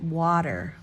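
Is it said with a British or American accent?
American. It is said with an American soft D.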